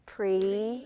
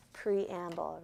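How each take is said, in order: First: "Preamble" drawn out in three separate syllables; "Preamble" chanted slowly in chunks for a class to join in. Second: Said in the usual way. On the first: Shown as a demonstration. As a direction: stretch "Preamble" into pre, am, bul with a gap between each. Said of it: "put our hand under our chin". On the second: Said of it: "we're gonna say preamble".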